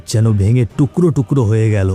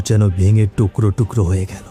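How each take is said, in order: Both takes have the same delivery.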